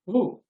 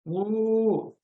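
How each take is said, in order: First: The vowel is held for one short beat. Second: The vowel is held for three beats. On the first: "Rekamatra. Matra is this" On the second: "Trimatra. That is Pluta"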